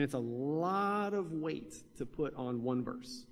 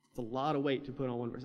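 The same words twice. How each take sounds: First: "lot" stretched long and slow; drawn-out emphasis. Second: Said in the usual way. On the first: Real, not acted. Preacher questions resting much on one verse, "lot" drawn out. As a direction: lean slowly on "lot", dragging it out. Repeats point, first drawn out.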